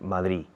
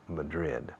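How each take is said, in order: First: It is said with a Spanish accent. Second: It is said with an English accent. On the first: The speaker calls it wrong. "No digáis Madrid, because people don't understand Madrid" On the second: The speaker calls it right. "People understand Madrid"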